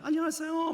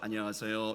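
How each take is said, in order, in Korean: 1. 높고 콧소리가 나요. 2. 낮고 평평해요. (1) "평소 때는 좀 콧소리가 좀 많이 났는데" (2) "레로 떨어져요"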